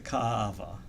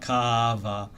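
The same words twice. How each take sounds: First: The word has a throat break in the middle. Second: The word flows smoothly with no break. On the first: The speaker calls it right. "you have to break it up" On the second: The speaker calls it wrong. "it's like not ka'ava"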